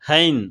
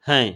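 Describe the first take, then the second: First: It is drawn out with a full nasal ending. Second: It is short, clipped and pressed, half length. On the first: The speaker calls it wrong. "வெறும் புத்தகத்துல மட்டுமே படிச்சவங்க ஹைன் ஹைன் அப்படின்னு தான் சொல்லுவாங்க" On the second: The speaker calls it right. "அரை மாத்திரையில அழுத்தி உச்சரிக்கணுங்க"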